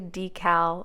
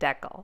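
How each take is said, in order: First: It is said in the American way. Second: It is said in the Canadian way.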